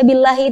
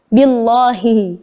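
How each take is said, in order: First: The 'l' sound is thin and light. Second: The 'l' sound is heavy and full. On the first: The speaker calls it right. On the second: The speaker calls it wrong.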